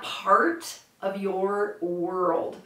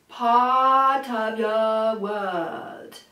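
First: The R sounds are strong and heavy. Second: The R sounds are dropped or very light. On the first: The speaker calls it wrong. "not part of your world. Part of your world. Very gummy" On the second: The speaker calls it right. "So what I'm singing is"

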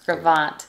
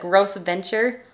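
First: It is said like 'grow-vont', the French way. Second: It is said like 'gross venture', as spelled. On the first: The speaker calls it right. "Say Gravant" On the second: The speaker calls it wrong. "it looks like Gross Venture. But don't say it like a noob"

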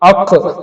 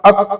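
First: The final consonant is released with an audible bounce. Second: The final consonant is cut short without a bounce. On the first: The speaker calls it right. "അങ്ങനെ തന്നെ എന്ത് ചെയ്യണം നമ്മൾ പറയണം" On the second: The speaker calls it wrong. "അങ്ങനെ പറഞ്ഞാൽ പോരാ"

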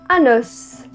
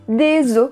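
First: The final S sound is pronounced. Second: The final S sound is silent. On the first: It means one bone. "a gente vai dizer a letra S, que normalmente a gente não diz" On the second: It means several bones. "no plural, a gente não diz a letra S"

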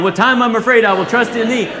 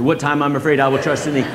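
First: It is said loudly, almost shouted. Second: It is said quickly, with rising energy.

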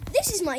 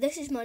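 First: It is spoken in a put-on presenting voice. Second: It is spoken in a natural everyday voice. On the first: "This is my YouTube voice" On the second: "this is my normal voice"

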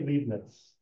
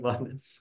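First: The first vowel sounds like 'ee'. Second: The first vowel sounds like 'eye'. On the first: The speaker calls it wrong. "don't say Leibniz" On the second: The speaker calls it right. "if it's EI, then it's pronounced I"

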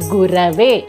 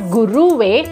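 First: The middle syllable has an a vowel. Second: The middle syllable has a u vowel. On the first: The speaker calls it right. "but Gurave" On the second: The speaker calls it wrong. "not Guruve"

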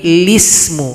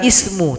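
First: The word begins with an l sound. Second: The word begins with a vowel sound. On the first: The speaker calls it right. "tapi lismu" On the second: The speaker calls it wrong. "bukan ismu"

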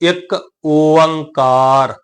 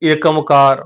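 First: It is pronounced as two words, 'ik onkar'. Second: It is pronounced as one word, 'ekamkar'. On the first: The speaker calls it right. "ਇਹਦਾ ਸਹੀ ਉਚਾਰਨ ਹੋਏਗਾ ਇੱਕ ਓੰਕਾਰ" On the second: The speaker calls it wrong. "ਬਹੁਤ ਸਾਰੇ ਵੀਰ ਭੈਣਾਂ ਇਹਦਾ ਉਚਾਰਨ ਕਈ ਕਰ ਜਾਂਦੇ ਏਕਮਕਾਰ"

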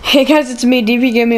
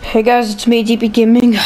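First: It is said with high energy. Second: It is said with low energy.

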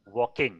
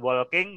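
First: The L sound is silent in the word. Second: The L sound is pronounced in the word. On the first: The speaker calls it right. "huruf L-nya nggak dibaca juga ya" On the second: The speaker calls it wrong. "bukan walking"

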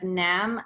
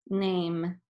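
First: The vowel is a short a sound. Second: The vowel is a long a sound. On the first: The speaker calls it wrong. "if I was reading it as nam" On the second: The speaker calls it right. "the E is making the A say A instead of a"

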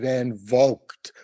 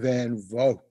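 First: The G in Vogt is fully pronounced. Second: The G in Vogt is barely heard. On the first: The speaker calls it wrong. "What I'm sure it's not" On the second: The speaker calls it right. "like maybe 10% of the G sound from the G. So it's mostly silent"

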